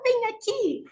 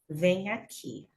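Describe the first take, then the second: First: It is said in a sweet, doting tone. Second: It is said in a serious, stern tone. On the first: A child or a puppy is being called over. "eu estou chamando uma criança ou, ou um labradorzinho" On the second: Something bad happened and she is angry. "séria desse jeito"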